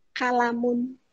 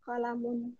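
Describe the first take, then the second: First: Kalamun with an a after the k; Arabic word kalamun. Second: Kolamun with an o after the k; Arabic word kolamun. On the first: (kalamun dengan bunyi ka) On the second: (Kolamun dengan bunyi ko) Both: Shown as a demonstration.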